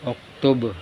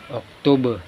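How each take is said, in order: The two takes are said the same way.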